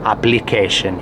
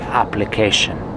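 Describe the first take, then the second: The two takes are said the same way.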